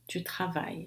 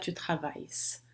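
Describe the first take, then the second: First: The final s is silent. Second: The final s is pronounced aloud. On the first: The speaker calls it right. "mas ele não se pronuncia" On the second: The speaker calls it wrong. "Eu não vou dizer"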